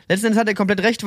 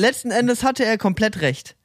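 First: Said in the usual way. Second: "letzten Endes hatte er komplett recht" drawn out slowly, "hatte" leaned on; slow emphatic admission. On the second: Real, not acted. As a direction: lay the words down slowly, conceding fully. Restates the admission with weight.

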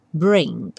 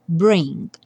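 First: Bring, G almost silent; subtle G. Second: Barely touch the G of bring; subtle G. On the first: Teacher repeats bring with a faint G, lower. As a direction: let the G of bring fade. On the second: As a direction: bring with a very light G at the end. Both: Shown as a demonstration. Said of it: "o G bem sutil".

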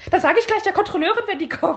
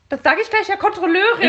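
First: High whiny telling-on voice; whiny tattletale. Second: High laughing snitch voice; whiny tattletale. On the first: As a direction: tattle like a petty snitch. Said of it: "dreht sich dann um zu der Frau und sagt". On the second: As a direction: tattle with a giggle. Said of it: "es fängt mit dem Satz an". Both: Retold or imitated.

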